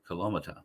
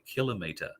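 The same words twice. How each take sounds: First: The ending sounds like motter, not metre. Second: The ending sounds like the word metre. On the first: The speaker calls it wrong. "instead of kilometre" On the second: The speaker calls it right. "why people don't say kilometre"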